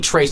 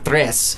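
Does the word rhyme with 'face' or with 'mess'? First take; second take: face; mess. First: The vowel sounds like the one in 'face'. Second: The vowel sounds like the one in 'mess'. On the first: This is how the locals say the name. The speaker calls it right. "actually Trace, ... that's how they pronounce it" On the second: This is not how the locals say the name. The speaker calls it wrong. "not Tres"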